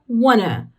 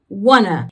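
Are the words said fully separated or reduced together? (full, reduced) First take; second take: reduced; reduced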